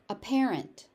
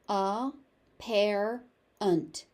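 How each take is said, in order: First: It is said at a natural, connected pace. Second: Each syllable is exaggerated and separated. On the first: "I pronounce the word normally" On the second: "overpronounce it"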